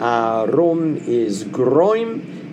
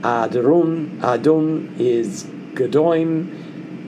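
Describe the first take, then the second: First: The R is a quick tongue flap. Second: A D sound replaces the R. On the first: "the flipped R as I just did" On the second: "you can use the D as Carol suggests"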